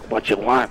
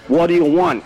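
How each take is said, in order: First: It is said with heavy, loud breathing. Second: It is said in a plain voice.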